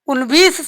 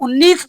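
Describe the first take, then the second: First: A v sound is pronounced in the middle. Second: The middle v sound is dropped. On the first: This is the strictly correct reading. "सही सही पढ़ा जाता है" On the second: This is how people commonly say it. "लेकिन हम लोग उन्नीस पढ़ते हैं"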